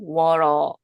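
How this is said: The t sounds like a quick flapped r. "미국 같은 경우는"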